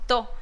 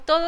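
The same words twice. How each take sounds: First: "to" for "todo", second syllable cut off; clipped "todo". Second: Said in the usual way. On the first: Shown as a demonstration. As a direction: say "to", chopping "todo" in half. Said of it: "no decimos todo". ("to" en vez de "todo", cortando la palabra) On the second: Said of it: "decimos to".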